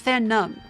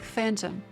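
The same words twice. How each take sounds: First: The word does not sound like the ghost word. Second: The word sounds like the ghost word phantom. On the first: The speaker calls it right. "Oh, it's phantom" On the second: The speaker calls it wrong. "I thought it was pronounced like phantom. Like like there was gonna be like some ghosts"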